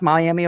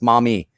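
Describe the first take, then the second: First: The name sounds like 'Miami'. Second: The name sounds like 'Maumee'. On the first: This is how outsiders say it. The speaker calls it wrong. "oh, it's Miami, Ohio" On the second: This is how locals say it. The speaker calls it right. "no, it's not. That's Maumee"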